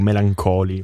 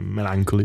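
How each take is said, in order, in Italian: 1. La parola si pronuncia con suoni italiani. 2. La parola si pronuncia con suoni inglesi. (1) "Per essere più italiano" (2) "abbiamo controllato su internet la pronuncia"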